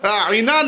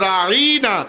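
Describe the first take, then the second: First: There is no 'y' sound after the 'ain'. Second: There is a 'y' sound after the 'ain'. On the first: Look at us. "রাঈনা না বলে" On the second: Our shepherd. "আইনের পরে ইয়া দিয়ে"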